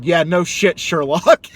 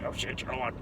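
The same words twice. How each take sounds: First: Put-on sarcastic old-lady comeback, pitched up; imitated blunt retort. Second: Very quiet, under the breath; muttered aside. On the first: Elderly customer to salad-proud driver, imitated blunt retort. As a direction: fire it back pointedly, a bit high. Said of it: "looked me dead in the eye and said". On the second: Retold or imitated. Storyteller recalling the old lady's line, muttered aside. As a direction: toss it away almost inaudibly.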